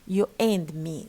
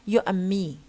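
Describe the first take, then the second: First: The word 'and' is full and stressed. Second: The word 'and' is reduced and unstressed. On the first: The speaker calls it wrong. "Don't say you and me. There is no need to to make and strong" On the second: The speaker calls it right. "you can pronounce it as and or n"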